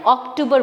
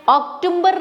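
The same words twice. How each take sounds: First: Teacher giving the right अक्टूबर; correct pronunciation. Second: अक्टूबर with an m, as octumber; teacher marking the wrong अक्टूबर; wrong pronunciation. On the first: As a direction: say अक्टूबर correctly, ok-too-ber. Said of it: "अक्टूबर बोलना है". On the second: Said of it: "अक्टूबर नहीं बोलना है". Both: Shown as a demonstration.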